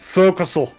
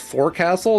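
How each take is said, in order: First: The word is slurred into a short form. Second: Every syllable is said in full, as spelled. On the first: This is how sailors actually say it. "they're like, fuck that, forecastle" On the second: This is how the word is written. "which is forecastle"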